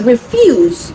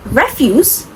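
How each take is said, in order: First: "refuse" with the stress on the second syllable. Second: "refuse" with the stress on the first syllable. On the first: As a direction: say "refuse" as the verb, re-FUSE. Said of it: "shift the stress ... to the second". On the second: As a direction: say "refuse" as the noun, REF-use. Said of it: "shift the stress from the first syllable". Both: Shown as a demonstration.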